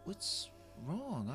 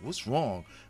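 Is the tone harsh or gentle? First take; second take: gentle; harsh. First: It is said in a gentle, apologetic tone. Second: It is said in a harsh, dismissive tone.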